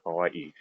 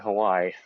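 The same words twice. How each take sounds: First: A glottal break separates the last two vowels. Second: The last two vowels run together without break. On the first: The speaker is trying to say it the local way. "with the break between the two I's, the Okina" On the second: The speaker is not trying to say it the local way. "If I just say Hawaii"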